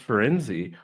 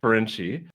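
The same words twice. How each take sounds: First: The name is pronounced the English way. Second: The name is pronounced the Hungarian way.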